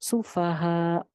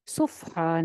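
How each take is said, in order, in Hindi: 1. f दूसरे अक्षर को खोलता है, su-fa-ha। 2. f पहले अक्षर को बंद करता है, suf-ha। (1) "सु है" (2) "सुफहा नहीं करना, सुफ ऐसे नहीं करना"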